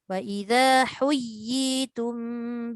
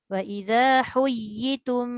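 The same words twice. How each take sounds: First: The second ya sound is held for two beats. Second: The second ya sound is dropped and merged. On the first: The speaker calls it right. "yi tu dipanjangkan" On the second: The speaker calls it wrong. "dia tinggalkan pula huruf"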